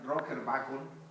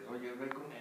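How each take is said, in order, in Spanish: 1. El nombre se dice con pronunciación española. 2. El nombre se dice con pronunciación inglesa.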